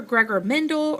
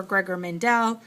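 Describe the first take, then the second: First: "Mendel" said as MEN-dul; first pronunciation. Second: "Mendel" said as men-DELL; alternative pronunciation. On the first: Teacher showing students one accepted name, "Mendel" as MEN-dul. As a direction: stress the first syllable of "Mendel", with a reduced ending. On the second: Teacher showing students the other accepted name, "Mendel" as men-DELL. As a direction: stress the second syllable of "Mendel", with a full "dell". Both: Shown as a demonstration. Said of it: "Either way is correct".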